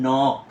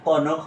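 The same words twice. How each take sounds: First: "নক" with silent k, one syllable nok; "নক" said firmly as nok; correct knock. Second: "কনক" with the k sounded, ko-nok; "কনক" as two syllables, ko-NOK; mispronounced knock. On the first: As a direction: model "নক" starting straight on n. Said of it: "এটা হবে নক". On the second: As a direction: say "কনক" wrongly, voicing the silent k. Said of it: "এটা কনক হবে না". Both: Shown as a demonstration.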